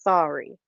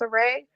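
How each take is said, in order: First: The name sounds like 'Sorry'. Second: The name sounds like 'Saray'. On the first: This is the correct pronunciation now. The speaker calls it right. "but it's Sorry" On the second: This is how it was said in an earlier show. The speaker calls it wrong. "they were pronouncing it as Saray"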